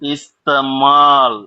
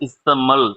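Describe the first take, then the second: First: The second vowel is a long drawn-out aa. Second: The second vowel is a short clipped a. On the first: The speaker calls it right. "அதுக்குண்டான உச்சரிப்பு கொடுக்கணும்" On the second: The speaker calls it wrong. "நீங்க படிச்சது இஸ்தமல் அப்படின்ற மாதிரி"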